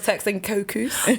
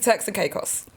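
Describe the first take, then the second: First: The last word begins with a 'koh' sound. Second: The last word begins with a 'kay' sound. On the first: The speaker calls it wrong. "I thought it was Turks and Cocos" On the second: The speaker calls it right. "I've just learned how to pronounce that"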